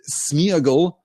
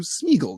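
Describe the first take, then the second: First: The first vowel is split into two sounds. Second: The first vowel is merged into one sound. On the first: "Smeagol feels weird. It feels ungainly" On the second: "it is contracted to Smeagol"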